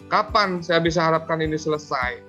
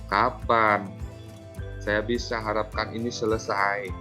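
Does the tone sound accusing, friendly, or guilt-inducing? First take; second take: accusing; guilt-inducing. First: The tone sounds harsh and accusing. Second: The tone sounds reproachful and guilt-inducing. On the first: The speaker is blaming the listener. "di sini apanya penghukum, ... Itu penghukum" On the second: The speaker wants the listener to feel guilty. "Sebagai pembuat rasa bersalah"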